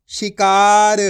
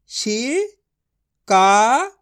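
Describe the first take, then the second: First: शिकार said at normal speed, louder and firm; firm whole word. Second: शिकार drawn out very slowly with a rising end; slow sounding out. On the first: Teacher giving the blended word शिकार, louder and firm. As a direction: land शिकार as one clear word. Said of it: "blended word after sounding out". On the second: Teacher sounding out शिकार for children, slowly stretched. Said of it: "teacher sounds out the word". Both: Shown as a demonstration.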